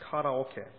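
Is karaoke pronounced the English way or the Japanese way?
Japanese. The word is said with Japanese-style pronunciation. The speaker calls it right.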